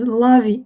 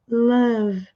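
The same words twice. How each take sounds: First: A vowel sound is added after the final v. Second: The word ends on the v, no vowel after. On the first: The speaker calls it wrong. "mas love, não" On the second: The speaker calls it right. "sem pronunciar o último e"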